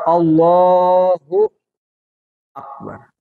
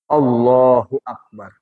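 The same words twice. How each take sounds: First: A pause separates the two words. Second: The two words run on without a pause. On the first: The speaker calls it wrong. "Jangan ada jeda" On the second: The speaker calls it right. "Dia mesti terus"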